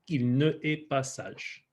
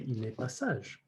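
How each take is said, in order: First: The 'ne' is a separate syllable before 'est'. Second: The 'ne' is contracted and joined to 'est'. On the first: The speaker calls it wrong. "it doesn't sound great" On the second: The speaker calls it right. "so instead they're going to say"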